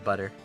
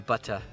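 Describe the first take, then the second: First: The middle consonant is a soft d-like sound. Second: The middle consonant is a crisp t sound. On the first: "I kind of do a duh instead of a tuh" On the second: "I don't say butter"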